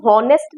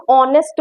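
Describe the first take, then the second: First: हॉनेस्ट with an audible h at the start; H wrongly sounded. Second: ऑनेस्ट starting straight on the "o" vowel, no h; silent H. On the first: Teacher shows students what not to say, हॉनेस्ट with the h pronounced. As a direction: breathe a clear h into the front of हॉनेस्ट. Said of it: "एच की हम हॉनेस्ट नहीं बोलते हैं". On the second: Teacher shows students the spoken form, ऑनेस्ट with silent h. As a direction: drop the h and open ऑनेस्ट on the vowel. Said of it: "हम ऑनेस्ट बोलते हैं". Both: Shown as a demonstration.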